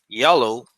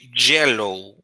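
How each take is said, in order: First: It starts with a soft Y glide sound. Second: It starts with a harder J-like sound. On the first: The speaker calls it right. "like yellow" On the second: The speaker calls it wrong. "you don't say yellow"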